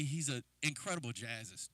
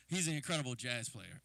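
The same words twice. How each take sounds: First: Says "jazzist" as if it were a real word; slip of the tongue. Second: Said in the usual way. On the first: Real, not acted. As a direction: trip over "jazzist", ending it with a plain s. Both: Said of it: "Wow, that's kinda weird".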